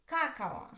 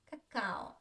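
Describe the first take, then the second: First: KA-ka-o, first "a" of "cacao" long and stressed; wrong first-syllable stress. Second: Ka-KA-o, short first "a" in "cacao"; stress on second syllable. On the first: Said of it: "If the stress was on the first". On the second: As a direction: make only the second "a" of "cacao" clear. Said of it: "The second a is clear". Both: Shown as a demonstration.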